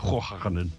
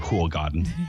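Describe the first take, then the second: First: The name has a Dutch pronunciation. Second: The name has a non-Dutch pronunciation. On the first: This is the pronunciation learned in the Netherlands. "I'm pronouncing it the Dutch way" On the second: This is the pronunciation people in Sweden understand. "I shouldn't say that because they won't understand me. So I say"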